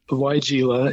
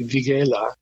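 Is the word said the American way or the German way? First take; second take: American; German. First: The word is said the usual American way. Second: The word is said the German way. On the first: "weigela is what we call it" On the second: "in Germany it would be weigela"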